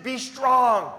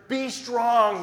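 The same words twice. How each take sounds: First: Be strong said high and loud, falling; emphatic repeat. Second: Be strong rung out high and loud with a falling end; emphatic repeat. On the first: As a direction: repeat be strong so no one misses it. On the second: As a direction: hammer home Be strong. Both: Shown as a demonstration. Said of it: "In case you missed it".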